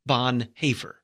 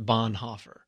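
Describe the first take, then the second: First: The second vowel is a rounded German umlaut sound. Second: The second vowel is a plain English o sound. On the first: The speaker calls it right. "that's pronounced with the A sound" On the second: The speaker calls it wrong. "here in America, it's Bonhoeffer. That's how most people pronounce it"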